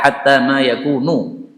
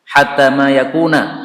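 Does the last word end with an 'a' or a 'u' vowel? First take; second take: u; a. First: The last word ends with a 'u' vowel. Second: The last word ends with an 'a' vowel. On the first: The verb is linked to the earlier verb. "ya'malu di sini kan dhammah ... yakununya pun juga dhammah" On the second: The verb is governed by the word before it. "kalau muncul setelah hatta itu adalah dibaca fathah"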